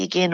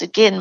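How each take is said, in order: First: Again pronounced to rhyme with "rain"; long-vowel again. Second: Again pronounced to rhyme with "ten"; short-vowel again. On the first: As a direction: say again with an "ay" in the second syllable. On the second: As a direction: say again with a short "e" in the second syllable. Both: Shown as a demonstration. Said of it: "depending on how you say it".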